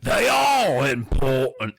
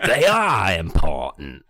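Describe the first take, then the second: First: Slow, booming British character voice; large British man. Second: Low, slow character bellow. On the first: Caped man bellowing, as a large British man. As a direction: play a big British man, drawing words out. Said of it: "I'm gonna do a large British man". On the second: Caped man reading his line, bellowed low and slow. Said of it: "The Cape Man bellowed". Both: Acted.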